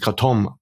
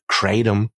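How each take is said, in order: First: The stress is on the last syllable. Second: The stress is on the first syllable. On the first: "hinten die Betonung zu lassen, also dieses Kratom" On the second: "anstatt Kratom"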